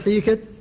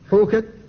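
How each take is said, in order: First: The first vowel is an i sound. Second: The first vowel is a u sound. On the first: "ويجوز أن تقول حيكت" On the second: "يجوز فيه في اللغة النطق به بالياء وبالواو"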